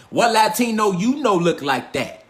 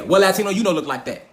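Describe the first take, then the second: First: Every word stretched out slowly; slow, drawn-out repeat. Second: Said in the usual way. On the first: Real, not acted. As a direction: drag the question out for emphasis. Repeats the question more slowly.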